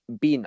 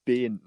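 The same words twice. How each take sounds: First: "Ben" mimicked with an exaggerated Kiwi vowel, like "Bin"; mock the way "Ben" gets said, vowel squeezed; "Ben" said as a teasing imitation of the accent; mocking Ben pronunciation. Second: "Ben" drawn out with a careful short-e vowel; "Ben" said deliberately, as a correction; corrected Ben pronunciation. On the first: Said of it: "He's like". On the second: Shown as a demonstration. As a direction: insist on your own way of saying "Ben". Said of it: "I didn't say that. I said".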